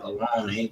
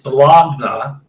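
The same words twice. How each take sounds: First: The word is pronounced the everyday casual way. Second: The word is pronounced as it is spelled. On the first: The speaker calls it wrong. "not bologna" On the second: The speaker calls it right. "actually it's bologna"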